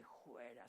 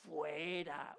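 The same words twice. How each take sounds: First: "fuera" said as "juera" with a breathy j sound; rustic juera. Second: "fuera" with a clear f, as it is properly said; correct fuera. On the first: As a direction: say "fuera" like a country pastor, "juera". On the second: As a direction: pronounce "fuera" correctly with a crisp f. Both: Retold or imitated. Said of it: "un demonio muy correctivo".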